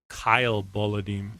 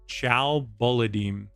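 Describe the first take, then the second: First: The first name begins with a k sound. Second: The first name begins with a ch sound. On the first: "it sounds like you pronounce it" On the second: "I've been pronouncing it"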